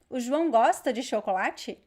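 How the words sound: The pitch rises at the end. It asks whether something is true. "The intonation goes up at the end"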